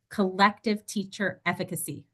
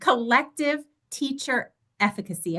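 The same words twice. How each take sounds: First: It is said at normal conversational loudness. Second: It is said loudly, with extra force.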